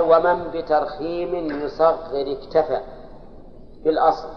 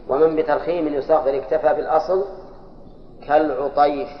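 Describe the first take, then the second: First: Slow, measured chant of the Alfiyya verse; verse recitation. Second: Said in the usual way. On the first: Shown as a demonstration. Teacher reciting the grammar verse to his students, slow chant. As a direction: draw each word out as a recited line. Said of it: "ثم قال".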